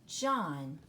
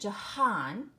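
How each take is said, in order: First: No H sound is heard in the middle. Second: An H sound is heard in the middle. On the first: The speaker calls it right. "You don't hear that H in the middle" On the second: The speaker calls it wrong. "It isn't Jahan"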